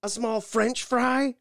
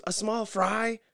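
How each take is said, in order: First: Much higher, louder, slow sarcastic question; mock incredulous cashier. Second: Higher mock wife confirming; imitating Nikki. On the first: Cashier mocks the fry order back, slow and high. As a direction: drag it out like she can't believe it. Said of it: "And she goes". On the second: Wife confirms her fry order, mock-high. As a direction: check it politely. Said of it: "Nikki goes".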